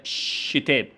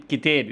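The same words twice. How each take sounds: First: شتاب with sh replacing the opening k; child's شتاب, sh-initial; child's hissing substitution. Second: Said in the usual way. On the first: Shown as a demonstration. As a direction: say شتاب, k turned to sh. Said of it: "استبدال صوت مزماري". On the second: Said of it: "كلمة كتاب".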